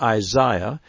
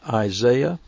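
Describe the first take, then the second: First: The name is said in a British pronunciation. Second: The name is said in an American pronunciation.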